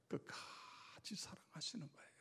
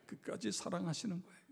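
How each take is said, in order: First: Soft unvoiced whisper of the key line. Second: Said in the usual way. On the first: Shown as a demonstration. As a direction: breathe it like a secret. Whispered repeat of key phrase.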